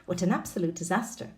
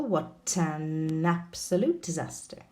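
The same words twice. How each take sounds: First: "What an absolute disaster" run together quickly; fast model reading. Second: "What an absolute disaster" said slowly, each linked sound drawn out; slow model reading. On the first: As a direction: rattle it off fast with everything linked. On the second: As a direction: read it slowly so the links are heard. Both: Shown as a demonstration. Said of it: "We've got an example".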